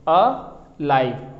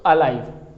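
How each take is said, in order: First: "अ live" very slow, with a gap after "अ"; two separate syllables. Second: Said in the usual way. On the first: Shown as a demonstration. Teacher counting two syllables, "अ live" slowly split apart. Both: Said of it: "दो syllable".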